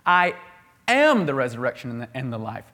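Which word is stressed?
am. The word "am" carries the main stress. It exists within the speaker's own being. "He has it in himself"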